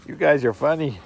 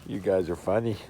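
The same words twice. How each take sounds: First: Brighter and louder, delighted; amused. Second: Said in the usual way. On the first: Real, not acted. Owner delighted by the playing puppies, amused. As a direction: lift it up, tickled by the puppies.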